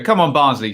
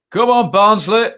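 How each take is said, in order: First: Said in the usual way. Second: Louder, higher attempt at a Barnsley accent cheer; a half-hearted mock Barnsley accent, cheering the team on; failed Barnsley accent. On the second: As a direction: have a go at a Barnsley accent and fall short. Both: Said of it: "I can't say it in a Barnsley accent".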